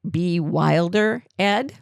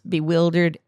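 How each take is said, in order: First: It is broken up, with a separate final part. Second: It is said smoothly as one word. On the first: Someone named Ed is told to be wilder. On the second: Someone is confused.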